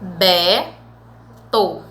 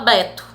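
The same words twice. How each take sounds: First: The word has a pause between its two syllables. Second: The word flows without a break between syllables. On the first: "quando você fala pausadamente, você abre a boca duas vezes" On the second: "Quando você fala, você fala Beto"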